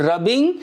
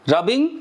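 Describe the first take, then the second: No difference in how they are said.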